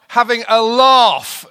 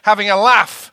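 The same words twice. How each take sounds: First: It is said in a London accent. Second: It is said in a northern English accent.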